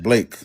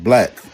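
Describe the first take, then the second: First: The vowel sounds like the 'ay' in lake. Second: The vowel sounds like the 'a' in lack. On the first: The speaker calls it wrong. "E C is not pronounced Blake" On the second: The speaker calls it right.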